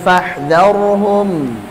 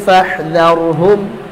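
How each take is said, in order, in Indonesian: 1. Bunyi m di akhir berdengung sebentar lalu berhenti. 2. Bunyi m di akhir dipotong tiba-tiba. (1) "harusnya fahdharhum" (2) "antum menghilangkan sifat tawassut saat mengucapkan huruf nun maupun mim tatkala waqaf"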